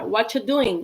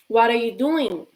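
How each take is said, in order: First: The words are reduced and run together. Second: Each word is pronounced fully and separately. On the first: This is how people really say it. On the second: This is the textbook form.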